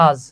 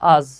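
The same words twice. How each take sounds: The two takes are said the same way.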